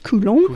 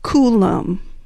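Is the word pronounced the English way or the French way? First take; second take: French; English. First: It is pronounced the French way. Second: It is pronounced the English way.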